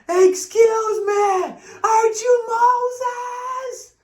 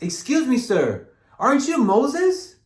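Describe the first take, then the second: First: It is said loudest of all. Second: It is said at normal, quiet loudness.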